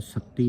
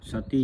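First: ਸਤੀ with a doubled, tight t; wrong tight ਸਤੀ. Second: ਸਤੀ with a single, unstressed t; soft ਸਤੀ. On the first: Teacher shows the misreading, ਸਤੀ with tight tt. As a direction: hold the t in ਸਤੀ, sat-ti. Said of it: "ਸਤੀ ਨਹੀਂ ਕਹਿਣਾ". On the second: Teacher explains to the congregation, ਸਤੀ with a light single t. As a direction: say ਸਤੀ loosely, sa-ti. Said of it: "ਪਾਠ ਹੈ ਸੰਗਤ ਜੀ ਪੋਲਾ ਹੈ". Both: Shown as a demonstration.

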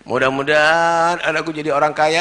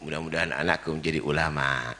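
First: Imitating a parent's prayer. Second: Sincere parent's prayer. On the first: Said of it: "Doanya apa?". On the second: Retold or imitated.

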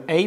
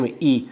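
First: "ای" said as a gliding "ey"; fifth vowel, "ey". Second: "ای" said as a pure "ee"; sixth vowel, "ee". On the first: Teacher contrasts fifth alef, saying "ای" as "ey". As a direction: glide "ای" from e towards y. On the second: Teacher contrasts sixth alef, saying "ای" as "ee". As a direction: keep "ای" a steady long "ee". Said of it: "ششم". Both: Shown as a demonstration.

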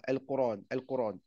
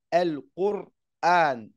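First: "Al-Qur'an" as "Qur-ran" run smoothly without the stop; Ibn Kathir form. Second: "Al-Qur'an" with a stopped, hamza-marked r'an; slow, loud "Al-Qur'an" set up as the wrong one; rejected form. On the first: Teacher shows how Ibn Kathir says it. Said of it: "il dit comme ça". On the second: Teacher stresses the form Ibn Kathir does not use. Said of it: "il dit pas". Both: Shown as a demonstration.

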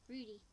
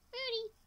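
First: Said in the usual way. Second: High, louder call of the name; high-pitched pet call; calling the cat. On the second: Pretend. Repeats cat's name as a call.

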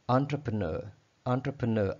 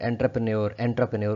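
First: एंटरप्रेन्योर said on-truh-pruh-nur; एंटरप्रेन्योर with an on start and an er ending; British pronunciation. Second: एंटरप्रेन्योर said en-ter-pre-nyor; एंटरप्रेन्योर with a hard en and a nyor ending; common wrong way. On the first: Shown as a demonstration. Teacher modelling British on-truh-pruh-nur. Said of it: "British में हम बोलना चाहें तो ये". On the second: Retold or imitated. Teacher imitating the usual mispronunciation. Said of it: "कुछ इस तरह का वर्ड हम बोलते हैं".

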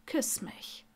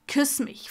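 First: Very soft, breath-only order; hushed, teasing command; whispered demand. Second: Voiced, insistent command; firm, outspoken demand. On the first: Acted. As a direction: whisper it as a private challenge. Intimate demand in acted scene. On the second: A narrator's reading. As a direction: order it openly, no hush. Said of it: "verlangte er".

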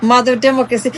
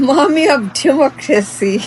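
First: Said in the usual way. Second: Slow, sneering put-on voice on "mommy"; mock title. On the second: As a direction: say "mommy of democracy" slowly as a joke name. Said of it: "এর চাইতে funny joke".

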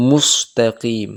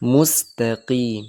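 First: মুস্তাকিম with a rounded heavy স, slowly; মুস্তাকিম with lips rounded on the s, the wrong way; wrong pronunciation. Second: মুস্তাকিম with a thin, light স, slowly; মুস্তাকিম with a thin, unrounded s; correct pronunciation. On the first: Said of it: "মুখ গোল করে সিন যুক্ত করে". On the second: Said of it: "সাউন্ডটাও পাতলা হয়ে গেল". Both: Shown as a demonstration.

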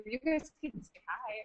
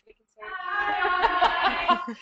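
First: Said in the usual way. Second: High, slow, laughing greeting; drawn-out giggly hello. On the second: Real, not acted. Room greets the webinar.

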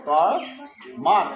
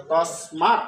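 First: "তসমাৎ" stretched very slowly, rising; drawn-out demonstration. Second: "তসমাৎ" as tas-mat, lower, with a rise; demonstrated pronunciation. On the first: Teacher repeats it for students, very slow drawn-out "তসমাৎ". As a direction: pull "তসমাৎ" apart into long syllables, tas and mat. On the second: Teacher gives the resulting pronunciation, "তসমাৎ" as tas-mat. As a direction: say "তসমাৎ" in two even parts, tas-mat. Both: Shown as a demonstration. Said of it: "তাহলে উচ্চারণ হলো".

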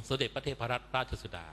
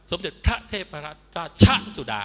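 First: "สมเด็จพระเทพรัตนราชสุดา" with short syllables left unstressed; correct light pronunciation. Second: "สมเด็จพระเทพรัตนราชสุดา" with "พระ" and "ช" punched high and loud; mock newsreaders hammering the short syllables in "สมเด็จพระเทพรัตนราชสุดา"; overstressed mispronunciation. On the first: Shown as a demonstration. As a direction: glide softly over "พระ" and the linking "ช" in "ราชสุดา". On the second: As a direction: jab the linking "ช" of "ราชสุดา" high and hard. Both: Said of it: "เขาไม่ออกเสียงหนักกัน".

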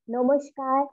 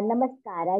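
First: "namaskar" said the Bengali way, as "nomoshkar"; "namaskar" with o vowels and a sh sound; Bengali pronunciation. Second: "namaskar" with open a vowels and a clear s; "namaskar" the Hindi way, s before k; pan-Indian pronunciation. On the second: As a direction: say "namaskar" as "nuh-mus-kaar", with no sh. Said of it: "as we say in India". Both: Real, not acted.

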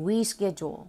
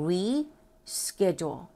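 First: "reschedule" joined up as ree-SKE-jool; whole-word model. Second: "reschedule" very slowly, split as re, pause, SKE-jool; syllable-by-syllable model. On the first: Teacher has learners repeat it, "reschedule" joined as one word. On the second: Teacher teaches the pronunciation, "reschedule" slowly in separated parts. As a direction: break "reschedule" after a drawn-out "re". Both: Shown as a demonstration. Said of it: "ออกเสียงคำนี้ก่อนเนาะ".

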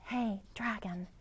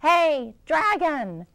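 First: Soft, hushed call; soft whisper. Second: Higher, much louder yell; loud shout. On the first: Elizabeth checking whether the sleeping dragon stirs, softly whispered. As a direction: gently test if he's asleep. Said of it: "Elizabeth whispered very softly". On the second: Elizabeth shouting into the sleeping dragon's ear, full loud yell. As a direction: yell right into his ear. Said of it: "She shouted as loud as she could". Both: Acted.

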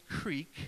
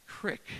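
First: "creek" with a long ee, rhyming with seek; northern pronunciation. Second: "crick" with a short i, rhyming with brick; local pronunciation. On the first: Northerner showing how he says it, "creek" with long ee. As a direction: say "creek" with a drawn-out ee vowel. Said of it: "that's not apparently how you say it down here". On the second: Northerner trying the word used down here, "crick" with short i. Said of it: "how you say it down here". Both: Shown as a demonstration.

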